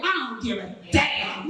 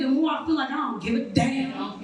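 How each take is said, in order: First: Lower, unbothered don't-give-a-damn. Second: Said in the usual way. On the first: Shown as a demonstration. Comic echoing her own line, lower and unbothered. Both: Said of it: "The way you said it".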